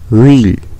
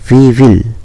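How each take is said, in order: First: It is squeezed into one short syllable. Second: Two separate full words are said. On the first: "इसको बोलेंगे व्हील" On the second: "यहाँ पर है वी विल"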